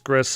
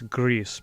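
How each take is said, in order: First: The name is said with an English-style vowel. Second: The name is said like the Spanish word. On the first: The speaker calls it wrong. "I don't think it's Gris" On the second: The speaker calls it right. "I think it's Greece, because uh, it is from a Spanish company"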